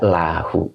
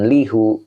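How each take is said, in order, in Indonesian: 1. Suku kata pertama memiliki vokal a. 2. Suku kata pertama memiliki vokal i. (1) "dibaca lahu" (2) "itu dibaca jangan lihu"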